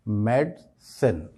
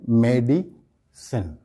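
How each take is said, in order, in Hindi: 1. बीच वाला 'i' स्वर unstressed है। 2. बीच वाला 'i' स्वर स्ट्रेस्ड है। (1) "इस लफ्ज़ का सही प्रोनाउंसिएशन" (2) "हम आय पर स्ट्रेस करते हैं"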